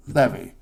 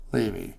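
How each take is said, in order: First: "Levy" said LEV-ee, with a short e; first pronunciation. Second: "Levy" said LEE-vee, with a long ee; second pronunciation. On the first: Host comparing two ways to say a surname, "Levy" as LEV-ee. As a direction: pronounce "Levy" to rhyme with bevy. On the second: Host comparing two ways to say a surname, "Levy" as LEE-vee. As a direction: pronounce "Levy" with the vowel of leave. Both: Shown as a demonstration. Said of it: "or Levy, Sean Levy".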